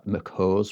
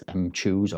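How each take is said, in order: First: Mchoose said as "muk-HOZ"; "muk-hoz" reading of Mchoose; pronounced muck-hose. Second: Mchoose said as "em-CHOOZ"; "em-chooz" reading of Mchoose; pronounced em-chooz. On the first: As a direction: run Mchoose together as "Mc-hose". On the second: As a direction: start Mchoose with the letter M, then "choose". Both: Shown as a demonstration. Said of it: "I don't know how to say it".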